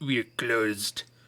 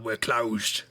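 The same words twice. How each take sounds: First: It is spoken in a put-on French accent. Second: It is spoken in the speaker's ordinary accent.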